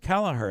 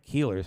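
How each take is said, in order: First: The name is said as Kelleher. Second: The name is said as Keeler. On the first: The speaker calls it right. "That's Kelleher" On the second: The speaker calls it wrong. "It's not Keeler's"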